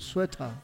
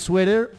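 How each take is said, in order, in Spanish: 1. Se dice con acento del inglés británico. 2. Se dice con acento del inglés estadounidense. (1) "inglés británico, sueta" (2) "Si es en inglés sweater"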